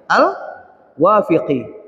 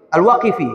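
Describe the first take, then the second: First: Al-Wafiqi said slowly, with f before q; wrong name first. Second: Al-Waqifi said with q then f; corrected name. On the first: Preacher stumbling on the name al-Wafiqi, slow. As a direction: drag out al-Wafiqi as a hesitant slip. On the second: Preacher correcting himself to Al-Waqifi, firm. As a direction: set it right firmly as Al-Waqifi. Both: Shown as a demonstration.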